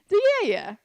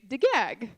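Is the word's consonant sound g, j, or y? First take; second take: y; g. First: It is said with y sounds. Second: It is said with g sounds. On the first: The north of the country says it this way. "other parts of Oman would say diyaya" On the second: Some regions of the country say it this way. "some parts of Oman will say degag"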